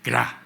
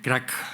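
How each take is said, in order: First: The word ends without any k sound. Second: The word ends with a clear k sound. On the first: This is the local form used in Concepción. "sino que se dice cra" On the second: This is the usual form not used locally. "no se dice crack"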